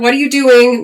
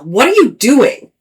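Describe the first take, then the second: First: It is asked in a casual, neutral tone. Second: It is asked in a scolding, exasperated tone. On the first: It is a simple question. "Not like that" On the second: You are not on track. "but like, girl, what are you doing?"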